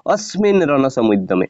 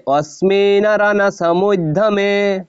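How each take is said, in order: First: Said in the usual way. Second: "অস্মিন রণসমুদ্যমে" sung out slowly, higher; chanted, intone "অস্মিন" high and slow. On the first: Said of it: "অস্মিন ওই হবে না". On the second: Shown as a demonstration. Teacher chanting the phrase to show its reading. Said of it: "এই জন্য এরপর হবে".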